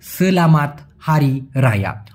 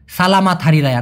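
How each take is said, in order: First: সেলামাত said with an e sound in the first syllable, se-la-mat, a bit slower; correct pronunciation. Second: সালামাত said with an open a sound in the first syllable, sa-la-mat; common wrong pronunciation. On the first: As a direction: model the right form: সেলামাত with e, spoken carefully. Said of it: "মূলত উচ্চারণটা হবে সেলামাত". (সঠিক উচ্চারণ: সেলামাত, প্রথম অক্ষরে এ, ধীরে) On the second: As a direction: demo the mistake: সালামাত with a broad first a. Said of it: "না ভাইয়া, মূলত উচ্চারণটা হবে সেলামাত". (ভুল উচ্চারণ: সালামাত, প্রথম অক্ষরে খোলা আ)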